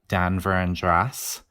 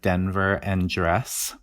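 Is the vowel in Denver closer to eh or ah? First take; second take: ah; eh. First: The vowel sounds like ah, Western style. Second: The vowel sounds like eh, not Western.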